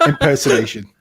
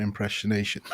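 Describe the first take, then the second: First: Said in the usual way. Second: IMPERSONATION garbled as "impression-ation"; soft slip, IMPERSONATION said like "impressionation"; mispronounced. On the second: Real, not acted. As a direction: stumble IMPERSONATION into "im-preh-shun-ay-shun". Slip, then says it again corrected.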